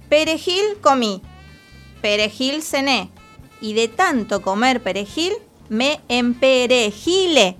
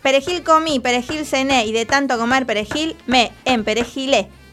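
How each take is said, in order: First: It is said very slowly. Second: It is said a little faster.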